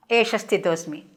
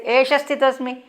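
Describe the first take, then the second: First: Said in the usual way. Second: Higher, defiant and curt Esha sthitosmi; rude reply. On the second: Acted. Ghatotkacha answering Bhima, rude defiant reply. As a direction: snap back Esha sthitosmi with contempt. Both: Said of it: "Very rudely he will say".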